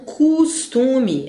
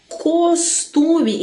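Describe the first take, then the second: First: The first syllable has a u vowel. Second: The first syllable has an o vowel. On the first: The speaker calls it wrong. "e não" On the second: The speaker calls it right. "Grafam-se com a letra O"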